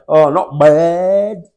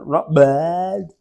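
First: Slow, drawn-out "Oh, not bad" with a bored bleh. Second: A mock bored "Not bad" with a falling bleh. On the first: Mimicking the locals' greeting reply, slow and bored bleh. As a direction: drag "Oh, not bad" out slowly, unimpressed. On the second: Mimicking the stock greeting reply, mock unimpressed. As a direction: flatten out "Not bad" like a shrug. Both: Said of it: "There's a, there's a sort of a bleh".

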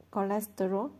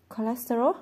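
First: Said in the usual way. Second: Higher, louder, puzzled question rising at the end; baffled echo with a rising tune. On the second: Acted. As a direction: repeat the word as if it's brand new to you. Toby echoes the word, puzzled.

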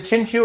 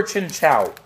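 First: Chinchou ending like "chew"; Chinchou as chin-choo. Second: Chinchou ending like "chow"; Chinchou as chin-chow. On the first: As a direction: say Chinchou with an OO at the end. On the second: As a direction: say Chinchou with an OW at the end. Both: Shown as a demonstration. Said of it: "how to pronounce its name".

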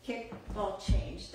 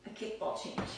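First: Kickball change, spelled out slowly and clearly; slow repeat. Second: Whispered step name, kickball change; named softly. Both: Shown as a demonstration. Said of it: "another good accent is".

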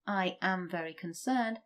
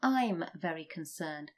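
First: "I am" said fully, both words separate; full form. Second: "I'm" run together as one syllable; contracted form. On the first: Teacher shows the full form before contracting. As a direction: spell out "I am very concerned" without contraction. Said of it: "rather than saying". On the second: Teacher shows how people normally say it. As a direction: blend "I'm very concerned" into the contraction. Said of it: "we would normally say". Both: Shown as a demonstration.

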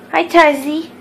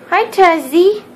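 First: Loud sing-song greeting. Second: Higher louder sing-song. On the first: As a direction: coo the dog's name. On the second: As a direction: coo the name brighter. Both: Real, not acted. Greeting the dog.

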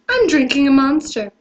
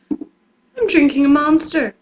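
First: Said in the usual way. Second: Slow, drawn-out line. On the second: Shown as a demonstration. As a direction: stretch every word slowly.

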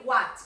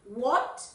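First: "what" with an open a, like "wat"; mistaken vowel in what. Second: "what" with a rounded o, like "wot"; correct vowel in what. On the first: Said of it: "por ahí se nos escapa decir". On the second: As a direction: model "what" as "wot", rising. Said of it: "se nos escapa decir what". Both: Shown as a demonstration.

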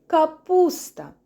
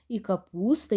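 First: "капуста" slow and louder, every syllable drawn out, falling at the end; teacher holds up the cabbage card and names it slowly and loudly; clear naming for kids. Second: Said in the usual way. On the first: Shown as a demonstration. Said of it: "впізнаємо та називаємо".

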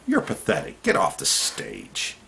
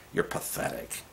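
First: Scornful retort. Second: Breathy, whispered contempt for "You're pathetic"; whispered scorn. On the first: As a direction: sneer it at the politician. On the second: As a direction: hiss "You're pathetic" under your breath. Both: Shown as a demonstration. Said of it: "start talking like that to politicians".

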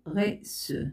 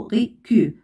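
First: "غي سو" as French "re-su", soft S; cedilla pronunciation. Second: "غي كيو" as French "re-ku", hard K; mispronounced without cedilla. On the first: Teacher showing reçu with cedilla added, soft S. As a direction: say "غي سو" with S, French uvular R. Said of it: "عندما سأضع هذه العلامة ستنطق". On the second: Teacher showing reçu without its cedilla, hard K. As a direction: say "غي كيو" with K replacing S. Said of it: "إذا لم أضع سيديل ستنطق". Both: Shown as a demonstration.

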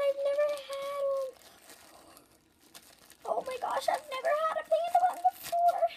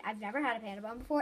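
First: Much higher, eager squeal; high, fast giddy gushing; excited. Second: Said in the usual way. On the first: Real, not acted. Excited over panda bun.

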